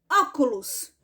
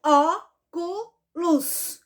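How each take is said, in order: First: Said in the usual way. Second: "Óculos" broken into ó, cu, los; syllable by syllable. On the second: Shown as a demonstration. Teacher counting syllables for pupils, "Óculos" syllable by syllable. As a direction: say "Óculos" in three slow, separated beats. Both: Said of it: "Vamos contar?".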